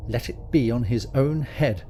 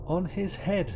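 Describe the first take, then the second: First: Said in the usual way. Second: Higher, softer echoing voice; ghostly echo. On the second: A narrator's reading. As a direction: sound like the hall answering back. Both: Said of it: "echoed the dim hall".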